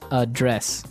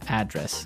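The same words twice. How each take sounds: First: The stress is on the second syllable. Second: The stress is on the first syllable. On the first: To deal with a problem. "the verb address has the stress on the second syllable" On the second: The place where someone lives. "there the stress is on the first syllable"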